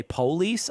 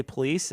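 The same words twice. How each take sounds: First: "police" with a stressed, full O; emphasized O. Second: "police" with the O left weak; unemphasized O. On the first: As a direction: hit the O in "police". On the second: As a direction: say "police" without emphasizing the O. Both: Shown as a demonstration. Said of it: "you don't emphasize the O".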